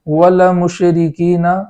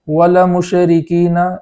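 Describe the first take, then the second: No difference in how they are said.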